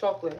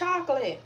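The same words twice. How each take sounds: First: It is said in a New York accent. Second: It is said in a Southern accent.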